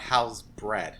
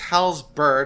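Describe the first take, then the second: First: The second syllable sounds like 'bread'. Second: The second syllable sounds like 'bird'. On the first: The speaker calls it wrong. "and not Hal's bread" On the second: The speaker calls it right. "It's Hal's bird"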